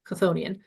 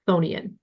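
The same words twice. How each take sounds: First: The word starts with a k sound. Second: The word starts without a k sound. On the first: This is how most people actually say it. "almost everybody I know just says it" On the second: This is the dictionary pronunciation. "as though the k is silent"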